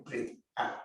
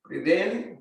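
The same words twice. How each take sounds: First: Much lower and softer, whispered exhale; breathed-out whisper. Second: Said in the usual way. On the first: Shown as a demonstration. Teacher showing the class a long exhale. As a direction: let the words ride out on the breath. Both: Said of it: "breathing cue demonstrated".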